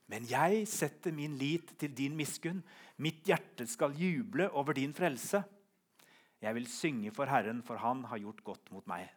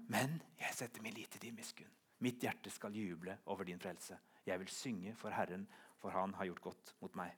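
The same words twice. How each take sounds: First: Slow, drawn-out declaration of trust; emphatic psalm reading. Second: Soft, low, intimate recitation; hushed psalm reading. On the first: Preacher reading the psalm's ending to the congregation, emphatic. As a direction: read the psalm out firmly and slowly. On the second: Preacher repeating the psalm out of the deepest abyss, hushed. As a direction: bring it right down, almost to yourself. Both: Acted.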